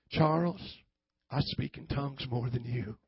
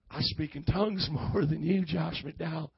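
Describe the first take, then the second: First: Low Southern preacher twang; playful Southern preacher, pitched down; mock Southern twang. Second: Southern twang breaking into a laugh; lightly mock Southern preacher, amused; playful Southern twang. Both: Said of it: "with a little twang on it".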